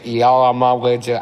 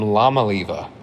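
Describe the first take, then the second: First: The name begins with a vowel sound. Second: The name begins with an L sound. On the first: The speaker calls it right. "But I hear on the radio it's" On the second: The speaker calls it wrong. "All year I thought the I was an L, and I've been calling him"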